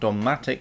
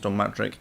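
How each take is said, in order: First: The surname has no r after the t. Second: The surname has an r after the t. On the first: The speaker calls it wrong. "which I actually pronounced wrong last time around. It's not Don Matic" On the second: The speaker calls it right. "it's Don Matrick"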